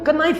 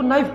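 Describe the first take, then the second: First: The word begins with a k sound. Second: The word begins with an n sound. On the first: The speaker calls it wrong. "इसको कनाइफ नहीं पढ़ते" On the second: The speaker calls it right. "इसको नाइफ पढ़ते हैं"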